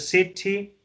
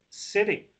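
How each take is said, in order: First: It is said in a British accent. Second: It is said in an American accent.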